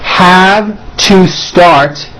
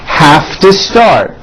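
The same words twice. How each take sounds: First: Each word is said separately and in full. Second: The words are squeezed together into a reduced form.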